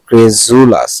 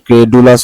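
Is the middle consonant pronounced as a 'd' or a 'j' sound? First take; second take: j; d. First: The middle consonant is a j sound. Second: The middle consonant is a plain d sound. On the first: The speaker calls it right. "কিন্তু এটার উচ্চারণ হলো ক্রেজুলাস" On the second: The speaker calls it wrong. "এটা normally কি ক্রেডুলাস হওয়ার কথা"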